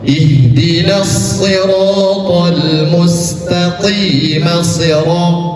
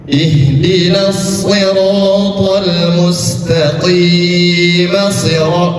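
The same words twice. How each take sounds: First: The vowel in qim is held only briefly. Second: The vowel in qim is drawn out long. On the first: The speaker calls it right. "seperti itu, dua harokat" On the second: The speaker calls it wrong. "jangan panjang ... nggak boleh"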